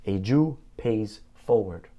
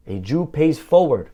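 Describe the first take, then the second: First: Said in the usual way. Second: Slow, louder "A Jew pays forward" with weight on "forward"; emphatic repeat. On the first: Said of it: "he said". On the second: Real, not acted. Rabbi repeating the lesson to his congregation, slow and emphatic. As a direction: drive home "A Jew pays forward" slowly, leaning on "forward". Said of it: "repeats the lesson".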